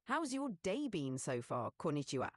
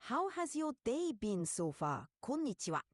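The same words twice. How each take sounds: First: A hint of Japanese accent, ending in a low "Konnichiwa"; light Japanese accent. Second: Stronger Japanese accent. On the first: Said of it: "speak Japanese mixed with English". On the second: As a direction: lean into the Japanese accent, with a crisp high "Konnichiwa". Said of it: "now sound a bit more Japanese". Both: Shown as a demonstration.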